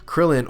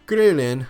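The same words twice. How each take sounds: First: The name is said with English pronunciation. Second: The name is said with Japanese pronunciation.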